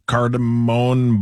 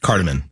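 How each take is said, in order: First: "cardamom" ending in a long "moan"; mispronounced cardamom. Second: "Cardamom" with a short, unstressed last syllable; plain "CAR-duh-mun" for "Cardamom"; correct pronunciation. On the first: Real, not acted. Reader tries a menu item, "cardamom" as "car-da-moan". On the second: Shown as a demonstration. Co-host corrects the reader, "Cardamom" with reduced ending. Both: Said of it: "It's just cardamom".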